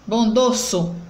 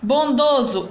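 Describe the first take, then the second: First: The middle consonant is a hissing s sound. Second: The middle consonant is a buzzing z sound. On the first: The speaker calls it wrong. "botando o som do S" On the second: The speaker calls it right. "entre as vogais O"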